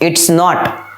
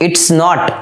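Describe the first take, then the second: No difference in how they are said.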